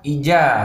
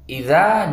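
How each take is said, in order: First: The middle consonant is a 'j' sound. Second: The middle consonant is a 'dh' sound. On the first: The speaker calls it wrong. "kita ganti dengan huruf ja... Tidak boleh" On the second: The speaker calls it right. "huruf za"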